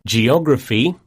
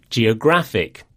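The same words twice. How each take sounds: First: Geography, OG stressed, rising. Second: Geographic, stress on GRAPH, falling. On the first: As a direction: lean on OG in Geography. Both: Shown as a demonstration. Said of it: "the stress falls on the penultimate syllable".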